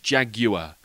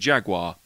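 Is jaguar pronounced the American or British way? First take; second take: British; American. First: Jaguar is pronounced the British way, as spelt. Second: Jaguar is pronounced the American way. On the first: "in England it's jaguar, how it's spelt" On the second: "my American friend went"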